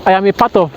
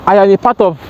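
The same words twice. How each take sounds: The two takes are said the same way.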